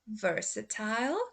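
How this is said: The last syllable rhymes with 'aisle'. "first I will say the U K pronunciation"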